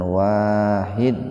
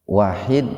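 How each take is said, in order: First: The first vowel is said long. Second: The first vowel is said short. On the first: It means the One, without any second. The speaker calls it right. "dengan wawu dibaca panjang" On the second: It means one, a number followed by two and three. The speaker calls it wrong. "ketika wawu dibaca pendek"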